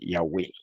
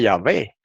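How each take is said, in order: First: The middle consonant is a W sound. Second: The middle consonant is a V sound. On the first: "como se pronunciaba antiguamente el hebreo" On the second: "es que era un judío alemán"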